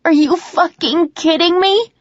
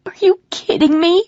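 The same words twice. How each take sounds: First: High, loud, slow furious scream; screaming louder. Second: High, loud disbelieving scream. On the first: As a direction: scream it even harder, stretching it out. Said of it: "I scream even louder". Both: Acted.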